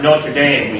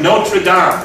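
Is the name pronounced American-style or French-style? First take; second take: American-style; French-style. First: The name has an American English pronunciation. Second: The name has a French-style pronunciation.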